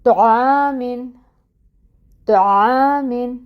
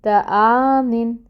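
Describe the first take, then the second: First: تعامن with a full, heavy ط and a rounded o vowel; heavy ṭa, correct. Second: تعامن with a thin, light ت and a plain open a; the wrong way, light ت in تعامن. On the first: Teacher giving the correct heavy ṭa after the wrong one. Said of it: "تو ہم پڑھیں". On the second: Teacher showing the mistaken light ta. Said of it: "اگر تا سے پڑھوں نقطوں والی سے". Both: Shown as a demonstration.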